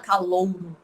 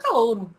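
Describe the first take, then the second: First: The word is said carefully, as it is written. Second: The word is said in relaxed everyday speech. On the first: This matches the written form. "Ninguém fala calouro" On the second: This is how everyone actually speaks. "a gente fala calouro"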